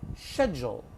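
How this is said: It is said in a British accent. "And in the U K"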